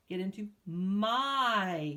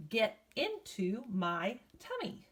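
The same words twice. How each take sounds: First: "Get into my." said very slowly, drawing out the long I in "my"; slow down and hold the I sound in "my"; slow drawn-out "my" for the class; stretched "my". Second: Said in the usual way. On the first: Shown as a demonstration. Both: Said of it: "You hear my has that I sound".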